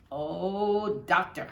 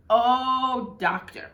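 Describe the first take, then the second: First: A lightly voiced, raised announcer's exclamation; a touch of the delighted broadcaster closing the call; mild play-by-play "Oh, doctor" sign-off; Red's sign-off. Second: Higher, louder announcer's "Oh" dropping on "doctor"; hammed-up delighted broadcaster sign-off; imitating the radio man's trademark exclamation; Red's catchphrase. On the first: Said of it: "And that was Red". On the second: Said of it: "end his calls with".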